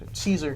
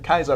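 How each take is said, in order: First: The name begins with an S sound. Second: The name begins with a K sound. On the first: This is what the other factions call him. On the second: This is how his own faction says it in the game.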